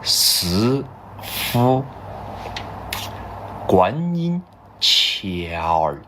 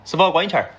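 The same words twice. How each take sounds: First: It is said at a slower pace. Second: It is said at a faster pace.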